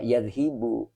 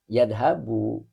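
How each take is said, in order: First: The vowel after 'dh' is i. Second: The vowel after 'dh' is a. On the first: The speaker calls it wrong. "Tidak boleh" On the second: The speaker calls it right. "Karena di kamusnya garisnya di atas. Fathah"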